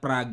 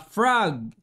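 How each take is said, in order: First: The word begins with a P sound. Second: The word begins with an F sound. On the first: The speaker calls it wrong. "hindi pala Prague yun" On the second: The speaker calls it right. "binago ko na po yung bigkas ko ... Frog pala tapos F pa"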